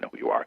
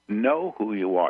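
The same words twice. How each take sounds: First: The words are whispered. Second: The words are said in a normal voice. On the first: "I whisper the words as they come" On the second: "and repeat them"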